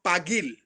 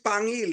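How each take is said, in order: First: The name has no nasal sound in it. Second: The name has a nasal 'ng' sound in it. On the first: This is the original form of the name. The speaker calls it right. "it's called Pagil" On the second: This is the local dialect form of the name. The speaker calls it wrong. "he don't call it Pangil"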